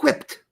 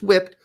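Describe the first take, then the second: First: It starts with a breathy hw sound. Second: It starts with a plain w sound. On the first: "Why are you saying whip with an H?" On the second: "Not just whipped"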